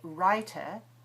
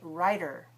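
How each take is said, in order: First: It has a British accent with a crisp t. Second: It has an American accent with a tapped t. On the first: "where the British would say writer" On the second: "Americans say writer"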